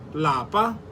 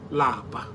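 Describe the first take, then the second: First: The word is said on a high tone. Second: The word is said on a low tone. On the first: It means home. "In higher tone" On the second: It means to be tired. "Lower tone"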